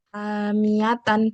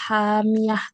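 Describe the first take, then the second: First: The word ends with its full nasal ending. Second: The word ends cut short without nasal ending.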